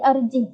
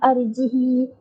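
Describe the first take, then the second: First: The word ends on h with no vowel. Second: The final i vowel is drawn out long. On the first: "sukunkan hak" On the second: "kasrahkan hak dan silah"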